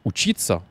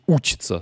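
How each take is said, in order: First: "учиться" stressed on the middle syllable ЧИ. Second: "учиться" stressed on the initial У; stress on first syllable. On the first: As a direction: put the accent on И in "учиться", not У. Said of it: "là il est sur le i". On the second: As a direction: hit the opening У of "учиться", leaving И unstressed. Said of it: "il passe sur le, le ou ici". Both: Shown as a demonstration.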